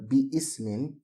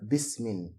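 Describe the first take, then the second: First: Bi is said separately before the next vowel. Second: Bi merges with the word into one unit. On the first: The speaker calls it wrong. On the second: The speaker calls it right. "instead of"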